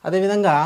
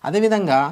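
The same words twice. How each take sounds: Both takes have the same delivery.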